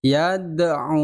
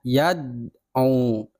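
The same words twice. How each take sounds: First: "Yad'u" with the d released in a bounce, "ya-da-u"; bouncing dal. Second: "yad'u" with the d pressed and held, no bounce; wrong pressed dal. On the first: Teacher models the bouncing dal for pupils. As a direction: let the d in "Yad'u" rebound. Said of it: "Jadi ada pantulan". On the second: Teacher warns pupils with the wrong pressed reading. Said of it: "Yad'u itu salah". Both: Shown as a demonstration.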